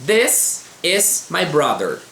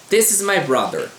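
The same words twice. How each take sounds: First: "This is my brother" read very slowly, each word separated; slow model reading. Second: Said in the usual way. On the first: Shown as a demonstration. Teacher reading example sentences to students, very slow. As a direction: spell out "This is my brother" word by word for learners. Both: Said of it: "Vamos ler exemplos aqui".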